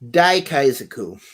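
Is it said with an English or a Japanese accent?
English. It is said with an English accent.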